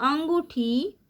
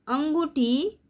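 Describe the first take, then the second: The two takes are said the same way.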